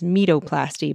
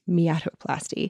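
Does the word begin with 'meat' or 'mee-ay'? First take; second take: meat; mee-ay. First: The word begins with the single syllable 'meat'. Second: The word begins with two syllables, 'mee-ay'. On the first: This is how the spelling reads literally. "is written as metoplasty" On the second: This is how the term is actually said. "thankfully it's pronounced as miatoplasty"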